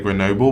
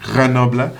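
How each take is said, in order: First: The word is said with an English pronunciation. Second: The word is said with a French pronunciation. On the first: This is the speaker's habitual way of saying it. "I normally say Grenoble" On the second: This is the correct native way of saying it. "I do know it's pronounced Grenoble"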